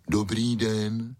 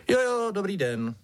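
First: Slow, drawn-out big-dog voice; polite greeting. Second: High-pitched ringmaster, falling away; absent-minded reply. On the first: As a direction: greet courteously and slowly as a dog. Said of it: "slušně pozdravil Maxipes". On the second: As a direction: return the greeting distractedly in a high voice. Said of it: "zamyšleně odpověděl principál". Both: A narrator's reading.

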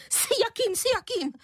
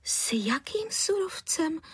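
First: Very high, scornful squawked echo; huff, then mock the question in a shrieky falsetto; indignant, far above normal pitch; unnaturally high voice. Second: Slow, high-pitched bewildered question; baffled, lightened voice; puzzled surprise. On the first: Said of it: "vykřikla paní Prchlivá nepřirozeně vysokým hlasem". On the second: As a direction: ask in astonishment, drawing it out. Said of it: "podivila se paní Středníková". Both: A narrator's reading.

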